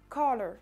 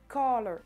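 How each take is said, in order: The two takes are said the same way.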